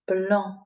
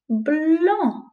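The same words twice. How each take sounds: First: Said in the usual way. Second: Blanc said high and falling; higher first take. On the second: Shown as a demonstration. Teacher models the title, Blanc high and falling. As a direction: lift Blanc up, then let it fall. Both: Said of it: "It's called".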